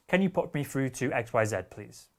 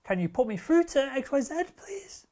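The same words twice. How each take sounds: First: "Can you put me through to X Y Z, please?" kept flat and falling at the end; flat, falling statement. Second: "Can you put me through to X Y Z, please?" climbing much higher, "please" up high and breathy; rising question. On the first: Coaching a salesperson, demonstrating a confident falling statement. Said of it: "being flat and then even perhaps going down". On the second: Coaching a salesperson, demonstrating the weak rising question. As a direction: lift it up at the end like an unsure question. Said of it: "As opposed to going". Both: Shown as a demonstration.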